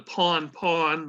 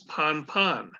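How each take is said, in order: First: The vowel sounds like 'pawn'. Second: The vowel sounds like 'pon'. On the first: This is the book's version, rarely heard in practice. "your book s- says it's P A W N, pronounced pawn" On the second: This is how it is usually said on the radio. "which is pronounced as pon pon"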